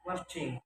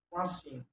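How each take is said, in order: First: Said in the usual way. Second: "marching" with s for ch; learner's mispronunciation. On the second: Shown as a demonstration. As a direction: say "marching" as "marsing". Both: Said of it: "is pronounced".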